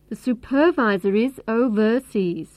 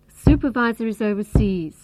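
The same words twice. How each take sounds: First: Supervisor is stressed on the second syllable. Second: Supervisor is stressed on the first syllable. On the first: The speaker calls it wrong. "If we stress the second syllable" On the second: The speaker calls it right. "the main stress is on the first syllable"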